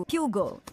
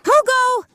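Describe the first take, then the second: First: Said in the usual way. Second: Very high, loud scream of a name; desperate shout. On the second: Acted. Sister screaming after runaway brother, desperate shout. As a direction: call out to him in panic.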